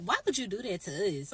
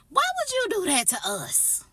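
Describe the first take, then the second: First: Said in the usual way. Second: High, loud indignant protest; exasperated outcry. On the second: Acted. Teller protests being made a witness to the push, loud exasperated outcry. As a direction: wail it out in outrage.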